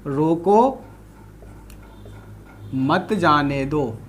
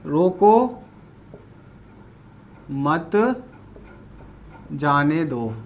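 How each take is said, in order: First: रोको alone, long pause, then a slow, lower मत जाने दो; pause after रोको. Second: रोको, then a low, soft मत set apart before जाने दो; pauses around मत. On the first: Teacher demonstrating a comma to students, long pause after रोको. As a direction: break after रोको, then run मत जाने दो together slowly. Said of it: "ये कॉमा मैंने यहां लगा दिया". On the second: Teacher reading the second sentence, breaking after मत. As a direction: separate मत from जाने दो with a long pause. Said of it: "और दूसरा क्या है दोस्तों". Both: Shown as a demonstration.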